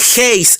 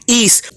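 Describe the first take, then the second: First: The word begins with a breathy h sound. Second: The word begins directly with a vowel. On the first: The speaker calls it wrong. "que él llama heis" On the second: The speaker calls it right. "el cual se pronuncia en realidad is"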